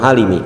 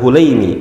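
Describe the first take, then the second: First: The name starts with 'Ha', vowel a. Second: The name starts with 'Hu', vowel u. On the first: The speaker calls it wrong. "bukan Halimi" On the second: The speaker calls it right. "saya cenderung untuk mendobetnya dengan Hulaimi"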